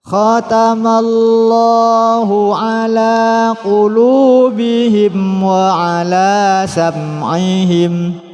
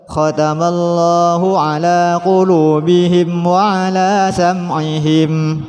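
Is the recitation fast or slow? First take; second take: slow; fast. First: It is recited at a slow tempo. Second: It is recited at a fast tempo. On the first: "Kalau kita lambat, ketukannya juga lambat" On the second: "Atau cepat"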